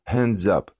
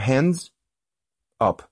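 First: The two words run together as one. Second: The two words are said separately. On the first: The speaker calls it right. "hands вливается в up в этот, да, то есть это как будто один кластер, одно слово" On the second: The speaker calls it wrong. "мы не говорим hands up"

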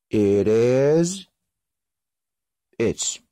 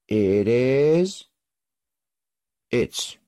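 Both takes have the same delivery.

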